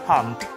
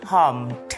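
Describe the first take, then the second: First: The word is said quickly. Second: The word is said at a normal, careful speed.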